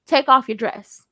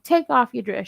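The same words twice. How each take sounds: First: Firm, louder command; said from the chest. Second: Said in the usual way. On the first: Shown as a demonstration. Coaching a hesitant man, firm command from the chest. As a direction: give the order with no question in it. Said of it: "If you're gonna say it, say it". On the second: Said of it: "he said it like it was a question".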